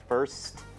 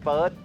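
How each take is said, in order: First: The final st sound is clearly pronounced. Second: The final st sound is weak or dropped. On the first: The speaker calls it right. "ต้องออกเสียงว่า" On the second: The speaker calls it wrong. "ไม่ใช่"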